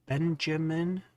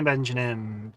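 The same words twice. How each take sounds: First: "Benjamin" higher, rising as a question; questioning repeat. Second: "Benjamin" slightly garbled, the m slurred towards an n; said weirdly. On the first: Streamer double-checking the name, "Benjamin" as a rising question. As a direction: check "Benjamin" aloud with a questioning lift at the end. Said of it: "that's what I said, wasn't it". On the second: Streamer greeting a viewer, "Benjamin" said weird. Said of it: "I said it weird for a second". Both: Real, not acted.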